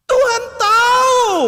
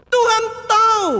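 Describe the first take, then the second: First: High, loud outburst, slowed; exasperated shout. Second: Said in the usual way. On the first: Acted. Preacher answers for God to the chatty pray-er, exasperated shout.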